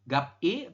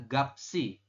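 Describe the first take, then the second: First: The s sound is dropped between the syllables. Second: The s sound starts the second syllable. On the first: The speaker calls it wrong. "bukan gap gap I atau gapet I, bukan" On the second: The speaker calls it right. "tapi dibacanya adalah gapsi seperti ini"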